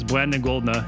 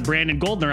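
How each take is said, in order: First: The R sound is distorted, like a speech impediment. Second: The R sound is pronounced clearly. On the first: This is how the name came out in childhood. The speaker calls it wrong. "I couldn't pronounce R's or S's. So instead of Brandon Goldner, I was Brandon Goldner" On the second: This is the normal way to say the name. The speaker calls it right. "instead of Brandon Goldner"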